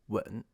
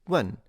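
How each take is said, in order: First: The tone dips low and then rises. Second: The tone falls sharply from high to low. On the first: It means to kiss. "a third tone" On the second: It means to ask. "fourth tone"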